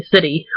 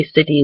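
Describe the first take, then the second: First: "city" as SIDDY; softened T. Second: "city" as SIT-tee; pronounced T. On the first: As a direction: turn the t of city into a light d. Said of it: "we script letter T". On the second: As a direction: put a true t in city. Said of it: "we don't ever say". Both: Shown as a demonstration.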